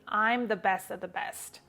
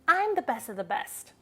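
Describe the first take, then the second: First: It is said flatly, without expression. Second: It is said with lively, expressive intonation. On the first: The speaker calls it wrong. "I don't just repeat" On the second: The speaker calls it right. "just like how Blair said that in the show"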